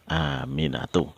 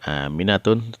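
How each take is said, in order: First: The name ends on a vowel without n. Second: The name ends with an added n sound. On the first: The speaker calls it right. "tetapi dia dibaca Aminatu" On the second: The speaker calls it wrong. "bukan ditanwin bukan Aminatun"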